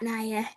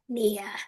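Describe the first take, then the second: First: The name is pronounced as Naya. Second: The name is pronounced as Nia. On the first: The speaker calls it wrong. "not Naya" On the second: The speaker calls it right. "it's Nia"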